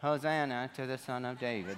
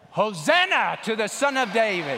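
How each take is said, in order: First: Soft, low, listless murmur; timid non-shout. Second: Loud, high crowd cheer; shouting. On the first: Pastor showing kids how nobody cheered on Palm Sunday, meekly. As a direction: say it small and low, no shouting at all. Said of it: "Nobody was saying, ... They weren't doing that". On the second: Pastor showing kids how the Palm Sunday crowd shouted, full shout. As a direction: belt it out as a rallying shout. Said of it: "So this is shouting". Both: Shown as a demonstration.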